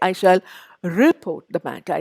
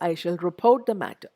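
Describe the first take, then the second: First: The stress is on the first syllable. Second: The stress is on the second syllable. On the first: The speaker calls it wrong. "I don't say" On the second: The speaker calls it right. "I say"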